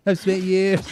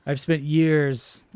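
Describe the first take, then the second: First: Higher, louder, slow through laughter; laughing repeat. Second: Slow, stretched "years"; drawn out. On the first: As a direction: repeat it loudly, cracking up. Repeats own line while laughing. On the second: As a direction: say it slowly, dragging out "years". First take of repeated line. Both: Real, not acted.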